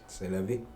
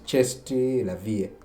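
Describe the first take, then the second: First: The first word is said the French way. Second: The first word is sounded out as spelled. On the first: The speaker calls it right. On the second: The speaker calls it wrong.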